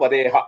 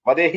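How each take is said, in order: First: The word ends with a short breathy 'h'. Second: The word ends with a full 'i' vowel. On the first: The speaker calls it right. "విసర్గ" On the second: The speaker calls it wrong. "వదేహి అనొద్దు"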